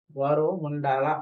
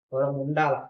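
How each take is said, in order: First: గౌరవం stretched out, each syllable slow and weighted; slow emphatic repeat. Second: Said in the usual way. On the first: Shown as a demonstration. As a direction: hammer home గౌరవం slowly.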